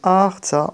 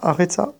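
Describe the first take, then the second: First: The R runs straight into TS, no vowel. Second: A short vowel is heard after the R. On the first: The speaker calls it right. "On dit Artsa" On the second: The speaker calls it wrong. "on ne dit pas Aretsa"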